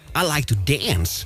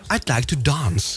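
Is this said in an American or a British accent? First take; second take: American; British. First: It is said in an American accent. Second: It is said in a British accent. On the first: "when the Americans say" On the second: "of course we say it uh, perfectly"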